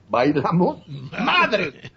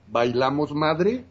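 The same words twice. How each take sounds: First: It is said harshly and aggressively. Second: It is said sweetly and gallantly.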